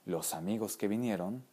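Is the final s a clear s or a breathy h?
clear s. The syllable-final s sounds are clear s.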